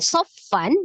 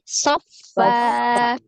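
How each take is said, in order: First: The word ends with an n sound. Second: The word ends on a long a vowel. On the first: The word is read with its tanwin ending. "fathah tanwin" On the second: The reader stops on this word. "ketika wakaf ... dibaca dua harokat"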